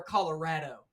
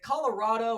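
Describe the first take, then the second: First: "Colorado" said as colo-RAD-oh; Colorado with short "a". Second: "Colorado" said as colo-RAH-doe; Colorado with broad "ah". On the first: Host offers guest the other pronunciation, "Colorado" with "rad". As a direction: say "Colorado" with the "a" of "cat" in the third syllable. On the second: Host offers guest the first pronunciation, "Colorado" with "rah". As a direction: say "Colorado" with an open "ah" in the third syllable. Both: Shown as a demonstration. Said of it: "we kinda have a debate on, you know, pronunciation".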